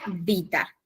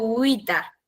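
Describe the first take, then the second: First: The word begins with a V sound. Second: The word begins with a W-like sound. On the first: This is the ecclesiastical Latin pronunciation. "el latín eclesiástico lo pronuncia vita" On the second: This is the classical Latin pronunciation. "yo digo uita en vez de vita en latín clásico"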